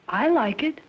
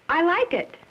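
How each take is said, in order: First: It sounds unsure and doubtful. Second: It sounds lively and animated.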